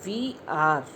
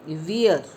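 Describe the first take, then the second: First: Both words are said separately and fully. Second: The words merge into one short syllable.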